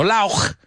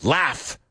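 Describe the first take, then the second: First: "lauch" said with a hard ch ending, not an f; "lauch" as the wrong way, ending in ch; wrong pronunciation. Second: "Laugh" ending with a clear f sound; correct pronunciation. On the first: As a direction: mispronounce "lauch" with a guttural ch. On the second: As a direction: say "Laugh" rhyming with half. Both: Shown as a demonstration. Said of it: "No lauch".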